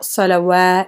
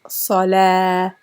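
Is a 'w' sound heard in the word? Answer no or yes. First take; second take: yes; no. First: The word has a w sound. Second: The word has no w sound. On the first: The speaker calls it wrong. "it's not salawah" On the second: The speaker calls it right. "it's salah"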